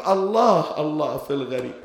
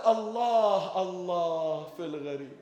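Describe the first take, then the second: First: الله cried out loud, then dropping on في الغريب; loud lament cry. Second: Pleading lament. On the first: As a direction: call out الله louder, then let the rest fall. (نداء حزين مرتفع على الله ثم يهبط) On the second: (رجاء حزين هادئ يخفت في الغريب) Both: Retold or imitated. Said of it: "ولهذا قالت".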